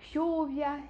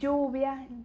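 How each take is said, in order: First: The ll is a hushing sh sound. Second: The ll is a strong, hard consonant. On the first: This is how it sounds in Argentina and Uruguay. "na Argentina é um chiado" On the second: This is how it sounds where the speaker lived. "É bem forte esse L L na região que eu morei lá"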